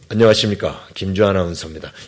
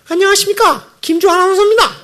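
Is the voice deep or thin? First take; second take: deep; thin. First: The voice is low and deep. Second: The voice is high and thin. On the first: The news sounds trustworthy. The speaker calls it right. "중저음을 자꾸 훈련해가지고" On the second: The news does not sound trustworthy. The speaker calls it wrong. "이런 목소리로 뉴스를 하면 음, 뉴스가 신뢰감이 안 생기는 거예요"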